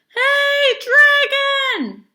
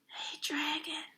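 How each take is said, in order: First: It is shouted very loudly. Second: It is whispered very softly.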